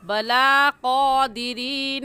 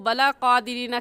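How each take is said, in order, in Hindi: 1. L के बाद का स्वर लंबा है। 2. L के बाद का स्वर छोटा है। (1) "खड़ी ज़बर को एक अलिफ के बराबर खींचते हैं" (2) "बला क़ादिरीन कहना गलत है"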